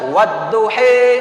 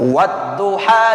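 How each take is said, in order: First: The final vowel leans toward an 'i' sound. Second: The final vowel is an open 'a' sound. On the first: This is a variant recitation reading. "dibaca wadduhi" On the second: This is the usual reading.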